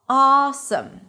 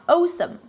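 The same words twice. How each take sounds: First: The first vowel stays steady and open. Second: The first vowel glides toward a rounded sound. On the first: The speaker calls it right. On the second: The speaker calls it wrong.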